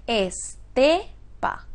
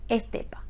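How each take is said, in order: First: "estepa" broken into es, te, pa; syllable by syllable. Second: Said in the usual way. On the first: Shown as a demonstration. Teacher sounding out a word for students, syllable by syllable "estepa". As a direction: draw out "estepa" slowly, stressing TE. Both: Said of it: "si está acentuada en la ante-, en la penúltima".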